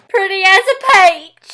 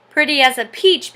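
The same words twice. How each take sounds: First: High, loud Southern twang; Southern accent. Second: Said in the usual way. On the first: Shown as a demonstration. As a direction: drawl "peach" slowly like "paych". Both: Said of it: "Pretty as a peach becomes".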